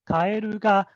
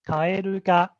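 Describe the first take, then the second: No difference in how they are said.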